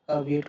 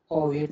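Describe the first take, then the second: First: अवेट starting on a short "uh"; correct pronunciation. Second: ओवेट starting on a rounded "aw"; wrong pronunciation. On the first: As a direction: open अवेट with a neutral "uh-wait". (अवेट को छोटे "अ" से शुरू करके) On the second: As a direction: open ओवेट with "aw-wait". (ओवेट को गोल "ओ" से शुरू करके) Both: Shown as a demonstration. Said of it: "ओवेट नहीं बोलेंगे".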